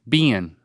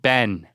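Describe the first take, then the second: First: The vowel is short, as in sit. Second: The vowel is open, as in set. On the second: "with the vowel in set"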